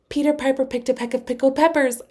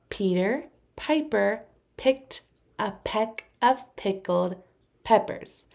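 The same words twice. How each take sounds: First: It is said as fast as possible. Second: It is said at a moderately quick pace. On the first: "as fast as you can" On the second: "Say it with me a little faster"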